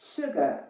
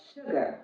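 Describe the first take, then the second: First: The first vowel is short. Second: The first vowel is short.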